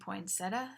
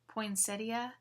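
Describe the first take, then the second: First: The word ends in 'tuh' with no 'ee' sound. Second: The word ends with an 'ee' sound before 'uh'. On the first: "We dropped the I at the end altogether" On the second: "Some say poinsettia"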